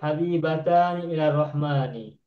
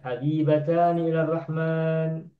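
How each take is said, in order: First: The last word ends with a full 'ni' syllable. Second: The last word stops on 'n' without a vowel. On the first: "huruf ujungnya nun nun semua kan? Ni ni ni" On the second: "mewakafkan ujungnya"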